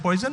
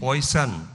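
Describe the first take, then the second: First: The middle consonant is a buzzing 'j' sound. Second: The middle consonant is a hissing 's' sound. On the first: "Bihar में तो पॉइजन ना होता है" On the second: "उसको सन कर दिया आपने"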